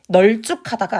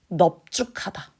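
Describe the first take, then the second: First: The first syllable ends with an L sound. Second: The first syllable ends with a P sound. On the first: The speaker calls it wrong. "널쭉하다가 아니고" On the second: The speaker calls it right. "넙으로 읽어야 돼요"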